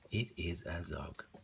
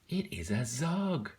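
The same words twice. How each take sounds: First: It is read in a flat, plain way. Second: It is read with lively, excited energy. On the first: The sentence has no exclamation mark. "If that wasn't there, I would have just read it like" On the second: The sentence ends with an exclamation mark. "I didn't just read that normally because I saw the exclamation mark"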